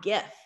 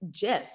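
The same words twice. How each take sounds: First: The word begins with a hard G sound. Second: The word begins with a soft G sound. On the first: The speaker calls it wrong. "not GIF" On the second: The speaker calls it right. "it's with a soft G sound"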